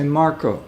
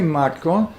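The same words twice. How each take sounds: First: It is said the English way, Mark-o. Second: It is said with Spanish syllables, Mar-co. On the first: The speaker calls it right. "you say Marco" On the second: The speaker calls it wrong. "you don't say Marco"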